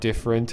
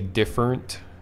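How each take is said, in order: First: It is said in a neutral US accent. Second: It is said in a Southern US accent. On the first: This is the usual way of saying it. "instead of" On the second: Someone else said it this way. "a teacher with a southern accent who would say"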